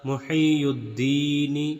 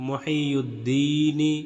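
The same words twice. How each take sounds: Both takes have the same delivery.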